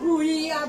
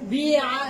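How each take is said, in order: First: The first syllable has a rounded 'u' vowel. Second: The first syllable has a front 'i' vowel. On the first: This is the original, hard-to-say form. The speaker calls it wrong. "আগে ছিল বুইয়া" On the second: This is the changed, easier form. The speaker calls it right. "আর এখন দেখেন বিয়া বিয়া বিয়া বিয়া সহজ হয়ে গেল না?"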